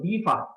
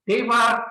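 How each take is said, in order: First: The first syllable sounds like 'dee'. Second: The first syllable sounds like 'day'.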